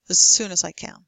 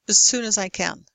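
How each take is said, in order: No difference in how they are said.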